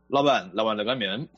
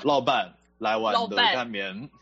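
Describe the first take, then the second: First: The phrase is spoken at a quick, natural pace. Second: The phrase is spoken slowly and deliberately. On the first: "你这个语速跟这个腔调我觉得我是难以模仿的" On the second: "我可以慢一点，我可以慢。"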